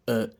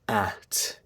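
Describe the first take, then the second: First: "at" as a weak uht; unstressed "at" with schwa vowel. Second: "at" with open a as in cat; stressed-form "at", clear a sound; full vowel. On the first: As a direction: reduce "at" to a neutral uh plus t. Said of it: "I did a schwa". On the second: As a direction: give "at" its strong, unreduced vowel. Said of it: "instead of". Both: Shown as a demonstration.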